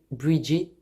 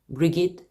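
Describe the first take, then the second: First: First guess at Brigid, French way, bri-ZHEE; French-style name try. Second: Brigid said BRI-gid, hard g and final d sounded; second try at Brigid, English way, hard g and final d; English-style name try. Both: Shown as a demonstration. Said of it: "je sais pas comment on dit son prénom".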